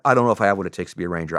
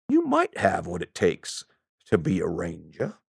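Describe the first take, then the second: First: Said in the usual way. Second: Put-on Southern accent. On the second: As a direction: draw it out like an old Southerner. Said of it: "I don't have a very good Southern accent".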